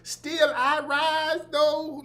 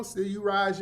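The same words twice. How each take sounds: First: High, slow mock Southern intoning; drawn-out parody of Southern oratory; fake Southern inflection. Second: Said in the usual way. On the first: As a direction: intone it grandly in a mocking Southern voice. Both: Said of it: "fake Southern voice inflections".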